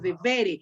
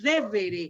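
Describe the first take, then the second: First: The stress is on the second syllable. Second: The stress is on the first syllable. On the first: The speaker calls it right. "sino devere. Acuérdense que los verbos de la segunda acentúan aquí" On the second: The speaker calls it wrong. "No decimos devere"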